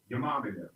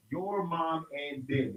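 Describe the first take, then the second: First: Said in the usual way. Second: Slow, each word of the phrase separated; careful, drawn-out enunciation of every word; slowly spelled out. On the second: Shown as a demonstration. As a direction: pull the slang apart word by word.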